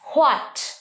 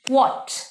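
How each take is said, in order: First: The word starts with an h sound. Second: The word starts with a w sound. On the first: The speaker calls it wrong. "তোমরা অনেকেই এরকম করো, ... এটা কিন্তু ভুল, হ হবে না" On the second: The speaker calls it right. "ওয়া, কি হবে?"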